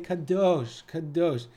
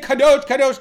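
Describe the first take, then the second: First: It is said softly with reverent awe. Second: It is said in a plain, casual way. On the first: The speaker calls it right. "ve'omrim be'yirah. They say kadosh" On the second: The speaker calls it wrong. "They don't say kadosh"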